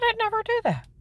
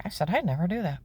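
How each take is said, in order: First: Much higher, emphatic "I'd never do that"; indignant denial. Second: Said in the usual way. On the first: Retold or imitated. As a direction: fling it back at the pastor in outrage.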